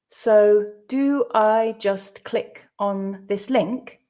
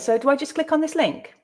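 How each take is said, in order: First: The sentence is read slowly. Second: The sentence is read at natural speed. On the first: "the first time slowly for you to grasp the meaning" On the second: "I'll read it twice more at a more natural pace"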